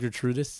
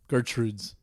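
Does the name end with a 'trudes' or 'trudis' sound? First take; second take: trudis; trudes. First: The name ends in an extra 'trudis' syllable. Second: The name ends in a short 'trudes' sound. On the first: This is how the name is actually said. "but it's pronounced Gertrudis" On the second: This is how the name is written. "That says Gertrude"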